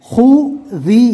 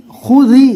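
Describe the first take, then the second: First: خوذی drawn out very slowly, rising; slow demo. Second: خوذی quick, higher and louder; crisp full word. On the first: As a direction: stretch خوذی syllable by syllable. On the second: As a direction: say خوذی in one clean go. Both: Shown as a demonstration.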